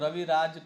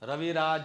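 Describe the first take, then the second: First: The name ends on a bare final consonant. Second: The name ends with an added final 'a' vowel. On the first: The speaker calls it right. "હું રવિરાજ કહીશ" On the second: The speaker calls it wrong. "એવું નહીં બોલવું... પાછળ અ નહીં બોલવું"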